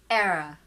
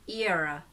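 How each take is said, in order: First: The first vowel is a short eh sound. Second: A schwa follows the ee before the r. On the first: "That's the sound of eh, eh" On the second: "ear, the schwa there, then ra"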